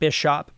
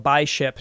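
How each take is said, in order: First: It is said like the ordinary word bishop. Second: It is said as by plus ship. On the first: The speaker calls it wrong. "not Bishop" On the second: The speaker calls it right. "ship like a like a sailing ship"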